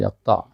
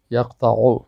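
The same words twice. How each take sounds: First: "یقطع" stopped on the ayn, yaqta'; pausal ending. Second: "یقطع" with final u voiced, yaqta'u; full ending. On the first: Teacher showing the form when stopping, pausal ending. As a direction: say "یقطع" without any final vowel. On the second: Teacher contrasting with the paused form, full ending. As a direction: say "یقطع" with its case vowel after the ayn. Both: Shown as a demonstration.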